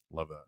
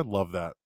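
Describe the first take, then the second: First: Much softer, almost under the breath; Love that murmured very softly; faded echo. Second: Said in the usual way. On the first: Shown as a demonstration. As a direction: repeat it to yourself, dropping away.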